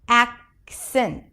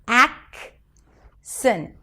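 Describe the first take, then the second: First: The word is said quickly and smoothly. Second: The word is said slowly and carefully.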